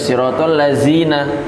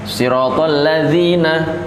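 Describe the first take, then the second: First: The consonant is a buzzing 'z' sound. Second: The consonant is a soft 'th' sound. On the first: The speaker calls it wrong. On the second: The speaker calls it right.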